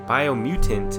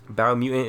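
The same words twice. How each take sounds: First: The T in the middle is clearly pronounced. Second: The T in the middle is dropped. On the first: The speaker calls it right. "I'm gonna have to start saying that" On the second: The speaker calls it wrong. "biomutant is how I say it, but it's just not right"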